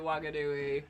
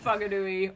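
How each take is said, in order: First: The name begins with a W sound. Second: The name begins with an F sound. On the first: "they just all pronounce it Wanganui" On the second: "it's pronounced F"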